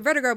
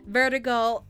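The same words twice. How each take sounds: First: The list is spoken quickly. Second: The list is spoken slowly. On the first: "I gotta say it fast" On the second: "I'll slow it down for everyone else"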